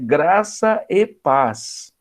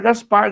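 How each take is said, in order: First: Each word is said separately and clearly. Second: The words are rushed and run together. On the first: The greeting is understood. The speaker calls it right. "não é Gaspar, é graça e paz" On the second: The listener cannot understand the greeting. The speaker calls it wrong. "a pessoa falava tão rápido"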